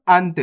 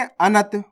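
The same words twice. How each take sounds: First: अंत as one syllable, "ant"; half न. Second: अनत with a vowel after n: a-nat; full न. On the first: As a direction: run the n of अंत straight into the t. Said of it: "यहाँ पे आधा ना है". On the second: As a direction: give अनत two syllables, "a-nat". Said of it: "यहाँ पे पूरा ना है". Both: Shown as a demonstration.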